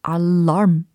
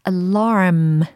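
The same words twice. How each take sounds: First: The ending is short and plain. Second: The ending is drawn out and exaggerated. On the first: The speaker calls it wrong. "alarm 이렇게 하는 게 아니라" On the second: The speaker calls it right. "끝에 이렇게 alarm 이렇게 해주시면 더욱더 완벽해집니다"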